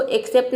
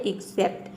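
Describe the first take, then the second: First: एक्सेप्ट begun with an open "ek" as in "bed"; wrong pronunciation. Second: एक्सेप्ट begun with a short "ik", "iksept"; correct pronunciation. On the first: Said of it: "इसको एक्सेप्ट नहीं बोलते हैं". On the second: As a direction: say एक्सेप्ट the right way, opening on "ik". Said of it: "ये होता है एक्सेप्ट". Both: Shown as a demonstration.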